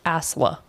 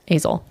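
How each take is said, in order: First: The name ends with an 'a' sound. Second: The name ends with an 'el' sound. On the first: The speaker calls it right. "no, it's Asla" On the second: The speaker calls it wrong. "I thought it was Azel"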